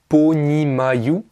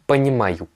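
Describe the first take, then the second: First: The first vowel sounds like an O. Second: The first vowel sounds like an A. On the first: "il s'écrit понимаю" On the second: "mais moi je vous le dis понимаю"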